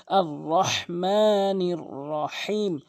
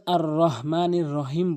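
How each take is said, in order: First: "আর রহমানির রহিম" slow, h from mid-throat; correct throaty HA. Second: "আর রহমানির রহিম" with plain light h, short vowels; mistaken soft H. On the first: Teacher models correctly, "রহমানির" with pharyngeal h. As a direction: stretch "আর রহমানির রহিম" with pressed h. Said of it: "হাটি হলকের মাঝখান থেকে". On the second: Teacher quotes what most people say, "রহমানির" with plain h. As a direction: say "আর রহমানির রহিম" unchanted with weak h. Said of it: "এখানে ভুল উচ্চারণ". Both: Shown as a demonstration.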